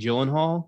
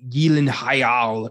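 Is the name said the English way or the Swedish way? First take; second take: English; Swedish. First: The name has the usual English pronunciation. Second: The name has a Swedish-style pronunciation.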